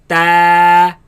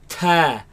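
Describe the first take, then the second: First: The t is held solid without a puff. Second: The t is spat out with a puff. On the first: The speaker calls it right. "the letter is pronounced as solid sound" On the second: The speaker calls it wrong. "they spit it out like ta"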